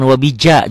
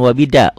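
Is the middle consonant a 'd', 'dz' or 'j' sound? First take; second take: j; d. First: The middle consonant is a 'j' sound. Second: The middle consonant is a plain 'd'. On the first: "jangan wabija juga jangan" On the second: "jangan wabida"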